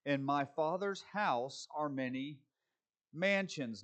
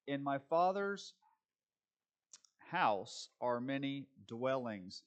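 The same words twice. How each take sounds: First: Said in the usual way. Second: In my Father's house are many dwellings, slow, leaning on "dwellings"; slow down and land on "dwellings"; stress on dwellings. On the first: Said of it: "it's dwellings". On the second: Shown as a demonstration. Preacher correcting the translation, stressing "dwellings". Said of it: "but literally it's dwellings".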